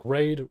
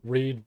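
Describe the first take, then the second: First: "raid" said with a long ay vowel, like "raid"; alternate pronunciation. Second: "read" said with a long ee vowel, like "reed"; standard pronunciation. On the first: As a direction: say "raid" rhyming with "made". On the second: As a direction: say "read" rhyming with "seed". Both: Shown as a demonstration. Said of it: "they pronounce it two different ways".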